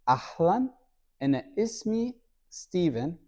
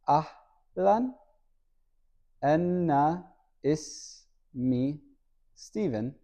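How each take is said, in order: First: It is said at normal speed. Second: It is said slowly.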